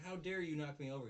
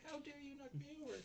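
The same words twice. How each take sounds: First: Higher, louder indignant imitation; mock blaming. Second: Very high, squeaky indignant imitation; mock blaming. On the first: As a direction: accuse him in mock outrage. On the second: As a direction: accuse him in a hammed-up squeal. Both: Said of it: "blaming him".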